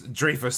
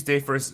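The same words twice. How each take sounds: First: Said in the usual way. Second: DREYFUS slipped to "Dayfus", R dropped; mispronounced name. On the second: Real, not acted. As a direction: say Dreyfus as "DAY-fuss", missing the R.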